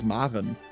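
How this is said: The name is pronounced the German way. "in German it's Maren"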